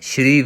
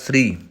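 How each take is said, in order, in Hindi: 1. यह sh की आवाज़ से शुरू होता है। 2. छोटा s सीधे r में मिल जाता है। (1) "ਸ਼੍ਰੀ ਵੀ ਗਲਤ ਹੈ" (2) "ਸਹੀ ਉਚਾਰਨ ਹੋਏਗਾ ਸ੍ਰੀ"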